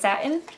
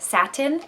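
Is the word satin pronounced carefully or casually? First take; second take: casually; carefully. First: The word is said relaxed, sounds loosely run together. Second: The word is carefully enunciated, each sound crisp.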